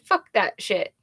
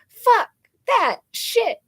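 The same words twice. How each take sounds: First: It is said at a normal, quieter volume. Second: It is said loudly, almost shouted.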